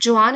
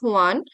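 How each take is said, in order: First: The name begins with a j sound. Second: The name begins with an h sound. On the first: The speaker calls it wrong. "It is not जुआन" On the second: The speaker calls it right. "It is हुआन"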